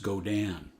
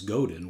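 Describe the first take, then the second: First: The name is said with French sounds. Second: The name is read with English spelling sounds. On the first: The speaker calls it right. "it's a French and it's pronounced Godin" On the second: The speaker calls it wrong. "it looks like G O D I N is Godin, which I initially thought also"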